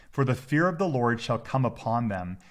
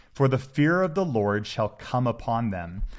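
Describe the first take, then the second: No difference in how they are said.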